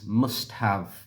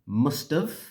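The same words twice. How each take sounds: First: Both words are said fully and separately. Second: The words are joined with a short 've' ending.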